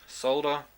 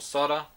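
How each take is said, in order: First: It is said with a British pronunciation. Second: It is said with an American pronunciation.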